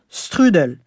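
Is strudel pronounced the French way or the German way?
French. The word is pronounced with French sounds. The speaker calls it wrong. "et non strudel"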